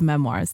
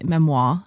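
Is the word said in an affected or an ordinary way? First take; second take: ordinary; affected. First: The word is said in an ordinary way. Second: The word is said in an affected way.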